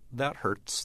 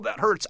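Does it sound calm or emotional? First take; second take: calm; emotional. First: It is said calmly, without emotion. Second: It is said with pained emotion.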